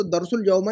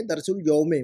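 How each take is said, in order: First: दरसुल यौमा with the wrong -a ending, marked as the error. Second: दरसुल यौमे with a clear -e ending on यौमे; correct ending. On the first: Teacher correcting homework, names the wrong ending. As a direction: give दरसुल यौमा as the form not to use. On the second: Teacher correcting homework, gives the right ending. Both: Shown as a demonstration. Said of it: "दरसुल यौमा नहीं कहेंगे".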